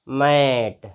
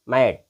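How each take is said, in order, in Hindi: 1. स्वर को लंबा खींचा गया है। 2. स्वर छोटा और झटके से बोला गया है। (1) "ऐसे नहीं बोलना है कि मैट" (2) "एकदम शॉर्ट साउंड है इसकी"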